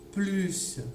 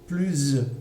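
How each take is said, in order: First: The word ends with an s sound. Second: The word ends with a z sound. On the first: "on va entendre encore le son S" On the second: "avec le, le son Z"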